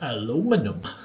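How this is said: It is said in an American accent.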